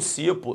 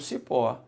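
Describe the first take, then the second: First: The stress is on the first syllable. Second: The stress is on the last syllable. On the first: The speaker calls it wrong. "Não" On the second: The speaker calls it right. "se botou no cipó, é uma oxítona"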